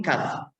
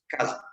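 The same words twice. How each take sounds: First: Said in the usual way. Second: Casa with the Spanish interdental z, said like caza; Spain-style casa. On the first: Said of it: "Y aquí". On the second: Shown as a demonstration. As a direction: say casa as in Spain, tongue between teeth. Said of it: "de manera un poco más vibrante".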